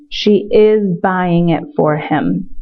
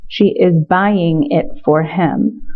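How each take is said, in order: First: Slow model sentence. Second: Slow repeat. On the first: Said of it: "translation read slowly". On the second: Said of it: "repeated translation". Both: Shown as a demonstration.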